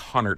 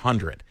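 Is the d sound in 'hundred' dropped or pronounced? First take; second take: dropped; pronounced. First: The d is dropped, so it sounds like hunnert. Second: The d is clearly pronounced in hundred. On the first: It sounds like a local Chicago speaker. The speaker calls it wrong. "Sometimes I go full Chicago and I say Hunnert" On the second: It is the standard form of the word. The speaker calls it right. "it's Hundred"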